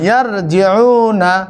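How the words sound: The word ends in 'na' and flows straight on. The reader does not pause and moves to the next verse. "যদি না ফেলান তাহলে ইয়ার জিউনা এভাবে চলে যাবেন"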